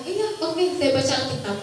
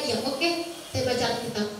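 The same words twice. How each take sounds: First: Said in the usual way. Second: Softer, as if thinking to oneself; inner voice. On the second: Retold or imitated. Child privately answering mother about reading Alkitab, quiet inner voice. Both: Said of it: "Dalam hati saya".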